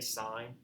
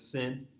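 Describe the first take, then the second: First: The vowel is long, rhyming with 'pine'. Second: The vowel is short, rhyming with 'pin'. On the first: The speaker calls it right. "You still say sine" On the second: The speaker calls it wrong. "you don't pronounce this as sin"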